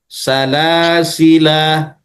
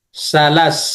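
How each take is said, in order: First: The word is said in full with long ending. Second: The word is cut short, ending on s. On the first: "dibaca panjang" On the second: "disukunkan sinnya"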